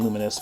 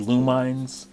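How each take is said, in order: First: The name sounds like the word luminous. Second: The middle syllable sounds like the word mine. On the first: "I always call it Luminous" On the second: "there's a kind of explosive kind of effects visually in the game. So it's like a mine"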